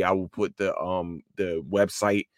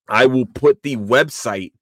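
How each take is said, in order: First: Said in the usual way. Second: "I will put the website" slow, loud and deliberate; slow, emphatic "I will put the website"; deliberate restatement. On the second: Real, not acted. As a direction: announce "I will put the website" firmly, word by word. Restarts the sentence firmly.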